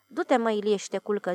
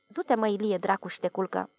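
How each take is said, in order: First: Gently. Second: Calm. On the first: Watchman gently tells the upset Ilie to go sleep, tender. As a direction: ease the words out tenderly. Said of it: "zise cu blândețe paznicul". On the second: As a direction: settle him down without fuss. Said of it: "zise liniștit". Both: Acted.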